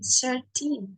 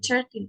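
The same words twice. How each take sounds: First: The first syllable sounds like the word 'shirt'. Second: The first syllable does not sound like 'shirt'. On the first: The speaker calls it right. "kayak Bro Ensis mengucapkan kaos. Shirt" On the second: The speaker calls it wrong. "Bukan thirteen"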